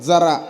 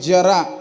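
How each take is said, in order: First: It is pronounced like the word meaning a little. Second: It is pronounced like the word meaning old age. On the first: The word means a little. The speaker calls it wrong. "असा नाही" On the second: The word means old age. The speaker calls it right. "असा उच्चार आहे त्याचा"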